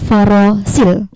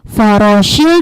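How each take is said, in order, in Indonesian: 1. Konsonan tengahnya bunyi 's' biasa. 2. Konsonan tengahnya bunyi 'sh'. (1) "Kalau yang sa biasa beda ya" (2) "Itu huruf sya"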